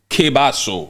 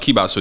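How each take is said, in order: First: The first vowel sounds like 'eh'. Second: The first vowel sounds like 'ee'. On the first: The speaker calls it right. "it's Kebaso" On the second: The speaker calls it wrong. "It's not Kibaso"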